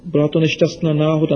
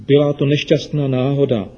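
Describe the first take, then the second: First: Put-on quick and a bit higher, a guilty boy; hurried apology. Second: Soothing. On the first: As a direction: rush the excuse out nervously. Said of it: "omlouval se Ríša". (spěšná, provinilá omluva) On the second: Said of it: "chlácholila ho maminka". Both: A narrator's reading.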